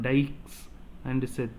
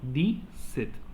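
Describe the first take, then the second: First: The x of dix is clearly pronounced. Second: The x of dix is left silent. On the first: The speaker calls it wrong. "we should not pronounce the x" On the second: The speaker calls it right. "We should say only di"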